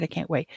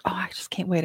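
First: Said in the usual way. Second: Breathless whisper, can't wait; whispered imitation of the eager guest; whispered eagerness. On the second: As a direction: whisper it like a giddy secret. Young guest eager, whispered quote.

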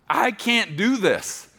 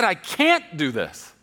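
First: "I can't do this" slow, higher and louder, with "do" stressed. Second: "I can't do this" slow and loud, with "can't" punched; stress on CAN'T. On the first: Preston crying out to God, leaning on "do". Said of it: "I didn't say ... I said". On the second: Preston correcting what he told God, punching "can't". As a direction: hit the word "can't" hard, slowly. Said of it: "I didn't say, "I don't wanna do this." I said". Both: Retold or imitated.

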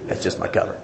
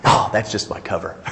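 First: Hushed, conspiratorial aside; sly whisper. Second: Said in the usual way. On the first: Retold or imitated. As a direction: whisper it like a secret confession. Same excuse repeated, whispered.

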